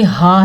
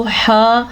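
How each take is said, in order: First: हा breathed freely from the chest; correct ha. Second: हा scraped from the throat; wrong ha demo. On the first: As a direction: say हा with an open h from deep down. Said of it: "हा सीने से निकलता है". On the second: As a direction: say हा with a tight throat friction. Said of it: "पढ़ना ठीक नहीं है". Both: Shown as a demonstration.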